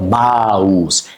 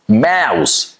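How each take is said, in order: First: "mouse" with a broad AH, like "mahooz"; wrong "mouse", open AH and voiced S; mispronounced mouse. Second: "mouse" with a fronted a-ow; "mouse" as maows, sharp S; correct OW vowel. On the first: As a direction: end "mouse" on a buzzing Z. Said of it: "not mouse". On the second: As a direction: start the vowel of "mouse" as in "mat". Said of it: "O U is a ow". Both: Shown as a demonstration.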